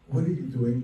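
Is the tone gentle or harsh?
gentle. It is said in a soft, gentle tone.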